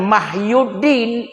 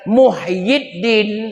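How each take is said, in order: First: The first syllable has an a vowel. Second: The first syllable has a u vowel. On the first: The speaker calls it wrong. "bukan Mahyuddin" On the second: The speaker calls it right. "tapi Muhyiddin"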